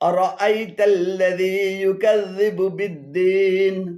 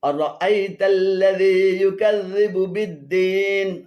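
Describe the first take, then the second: No difference in how they are said.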